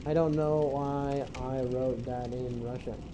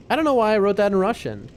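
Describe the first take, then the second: First: "I don't know why I wrote that in Russian" muttered slowly under the breath; slow quiet mutter. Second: Said in the usual way. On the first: Shown as a demonstration. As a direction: repeat it softer and slower, to yourself.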